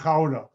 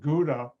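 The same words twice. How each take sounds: First: The word begins with a throaty CH sound. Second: The word begins with a hard G sound. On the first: This is how the Dutch say it. "The Dutch pronounce it Gouda. G is pronounced with a C H sound" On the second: This is how Americans say it. "The Americans pronounce it"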